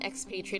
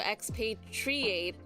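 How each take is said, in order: First: The final syllable has a short vowel. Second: The final syllable has a long vowel. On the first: It is used as an adjective. "is still the same for adjective" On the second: It is used as a verb. "shows that there's double long vowel sounds here"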